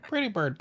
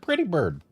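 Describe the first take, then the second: First: High squawky pretty-bird call; parrot voice. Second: Parrot voice. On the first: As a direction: chirp it like a pet parrot. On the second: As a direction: repeat it like a parrot. Parrot phrase repeated. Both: Acted.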